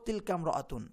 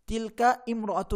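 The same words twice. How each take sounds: First: The first vowel is dropped, linking the words. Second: The first vowel of imra'atun is fully pronounced. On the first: The speaker calls it right. "আমরা বলবো" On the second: The speaker calls it wrong. "না বলে"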